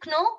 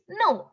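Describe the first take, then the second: First: "kno" as k-no; K sounded. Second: "no" for know, starting on n; high, falling "no" without a k; silent K. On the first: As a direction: say "kno" with a hard k before n. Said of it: "No, right?". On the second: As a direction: say "no" with no k sound. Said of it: "It is no". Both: Shown as a demonstration.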